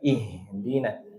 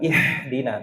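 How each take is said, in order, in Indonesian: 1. Bunyi h itu ringan, seperti hembusan napas biasa. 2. Bunyi h itu kasar dari tenggorokan. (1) "ha yang biasa" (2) "Bukan ihdina"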